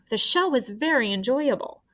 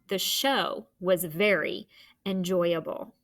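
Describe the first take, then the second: First: It is said with excitement, like an exclamation. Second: It is said in a plain, neutral way.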